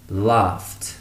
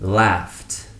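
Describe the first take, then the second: First: It is said in a British accent. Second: It is said in an American accent.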